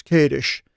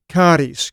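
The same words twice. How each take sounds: First: Kadesh said as KAY-dish, ending in sh; corrected Kadesh. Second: Kadesh said as KAH-tis, ending in a plain s; first try at Kadesh. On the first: Preacher correcting himself to Kadesh as KAY-dish. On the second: Preacher's first take on the place name, said KAH-tis. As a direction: Kadesh with the first vowel as in "father" and a final s. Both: Shown as a demonstration.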